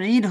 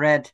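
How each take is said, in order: First: The vowel is long, as in reed. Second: The vowel is short, as in red. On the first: The speaker calls it wrong. "তখন এটা রিড হবে না" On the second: The speaker calls it right. "সে এটাকে কি বলবো আমরা? রেড।"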